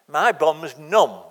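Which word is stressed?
numb. The stress falls on the word numb. The speaker simply reports being numb from riding. The speaker calls it right. "That's what he should have said"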